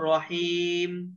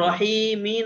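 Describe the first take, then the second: First: The word ends on the closed m sound. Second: The word ends with a short i vowel. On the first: The speaker calls it right. "পড়বো রহিম" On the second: The speaker calls it wrong. "রহিমি না পড়ে"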